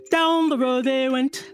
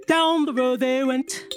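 Both takes have the same delivery.

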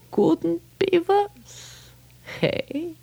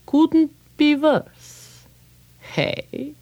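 First: Slow high wry echo; musing rabbi. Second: Slow, high, wry repeat; musing rabbi. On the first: Rabbi echoing the complaint, slow and high. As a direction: stretch it out, amused. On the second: Old rabbi mulling the man's complaint, slow and wry. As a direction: savor the words slowly like an old rabbi. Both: Acted.

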